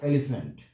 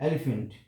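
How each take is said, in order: No difference in how they are said.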